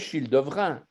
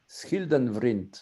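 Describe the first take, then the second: First: It is said with French sounds. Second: It is said with Flemish sounds. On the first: The speaker is revealed as French. "ils prononçaient Childevrin" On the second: The speaker is a native Fleming. "il fallait dire en, en flamand"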